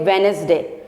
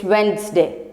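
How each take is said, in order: First: "Wednesday" said with every letter sounded, Wed-nes-day, the D and E pronounced; wrong spelled-out pronunciation. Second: "Wednesday" as two syllables, WENZ-day, D and first E silent; correct pronunciation. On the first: Teacher showing students the wrong way, "Wednesday" as Wed-nes-day. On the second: Teacher giving students the right way, "Wednesday" as WENZ-day. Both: Shown as a demonstration. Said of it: "you have to silent the D and E".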